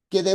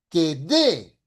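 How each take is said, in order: First: The word de is said without stress. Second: The word de is said with stress. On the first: It reads as the preposition, so the sentence is unclear. The speaker calls it wrong. "no se entiende" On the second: It reads as the verb to give. The speaker calls it right. "ahí sí le pongo un énfasis"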